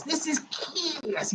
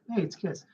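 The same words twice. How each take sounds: First: Slow, softer, higher hammed-up announcer voice. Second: Said in the usual way. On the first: Announcing Kiss to the viewers, hammed-up slow announcer. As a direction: stretch it out like a mock rock-show intro. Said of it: "You can't say it like that". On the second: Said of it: "You can't say Kiss".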